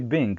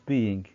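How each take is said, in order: First: The word is said without the long E sound. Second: The word is said with the long E sound. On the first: The speaker calls it wrong. "I can't say being" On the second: The speaker calls it right. "it's being with the E"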